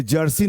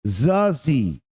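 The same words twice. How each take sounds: First: जर्सी said as jursee with the r sounded; जर्सी with j and r, the way it is not said; जर्सी spoken with a clear r; wrong way, with r. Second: जर्सी said as zaasee with no r; जर्सी spoken as zaasee; correct way, no r. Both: Shown as a demonstration. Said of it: "ये जर्सी नहीं है".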